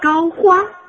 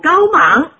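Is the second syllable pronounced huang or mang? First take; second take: huang; mang. First: The second syllable is pronounced huang. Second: The second syllable is pronounced mang. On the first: The speaker calls it right. "应该啊是病入膏肓" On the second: The speaker calls it wrong. "就知道是我说错了"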